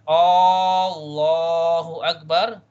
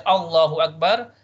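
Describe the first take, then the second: First: The opening vowel is drawn out long. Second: The opening vowel is said short. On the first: It asks whether God is the greatest. "it's a question if you prolong the uh, alif in the beginning" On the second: It states that God is the greatest. "it means Allah is the greatest"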